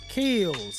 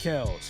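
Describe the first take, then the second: First: The vowel sounds like the 'i' in bit. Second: The vowel sounds like the 'e' in bed. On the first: The speaker calls it right. "It's Kills" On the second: The speaker calls it wrong. "I always say Kells"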